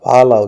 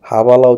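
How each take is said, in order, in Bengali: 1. শব্দটি v ধ্বনি দিয়ে শুরু হয়। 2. শব্দটি h ধ্বনি দিয়ে শুরু হয়। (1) "ভালা উচ্চারণ হবে" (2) "হাবালা উচ্চারণ হবে না"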